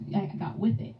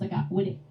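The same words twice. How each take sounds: First: The th sound in with is clearly pronounced. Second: The th sound in with is dropped. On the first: This is the older way the speaker grew up with. "I grew up with" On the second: This is the way people say it now. "Now they no longer pronounce the T H"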